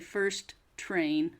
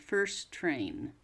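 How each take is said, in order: First: The T at the end of first is pronounced. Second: The T is dropped and the words run together. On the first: The speaker calls it wrong. "I didn't say first train" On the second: The speaker calls it right. "Don't say the first T. Just uh, put them together"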